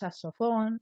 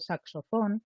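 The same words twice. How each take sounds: First: The k sound in 'sax' is dropped. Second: The k sound in 'sax' is pronounced. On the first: The speaker calls it wrong. "decimos saxofón" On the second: The speaker calls it right. "en vez de saxofón"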